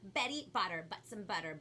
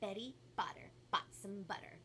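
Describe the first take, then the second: First: It is said very fast. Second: It is said a little faster.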